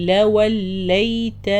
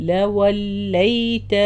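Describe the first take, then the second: Both takes have the same delivery.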